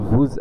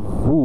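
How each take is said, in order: First: A z sound links it to the next word. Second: The word ends in a vowel with no final consonant. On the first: "প্রথম কনসোনেন্টের সঙ্গে সংযুক্ত হয়ে" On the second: "শেষের কনসোনেন্টটি উচ্চারিত হয় না"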